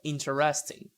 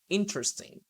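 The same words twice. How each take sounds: First: Every vowel is pronounced, giving four syllables. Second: The vowel after the stress is dropped, three syllables. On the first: The speaker calls it wrong. "it's not interesting" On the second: The speaker calls it right. "no, interesting"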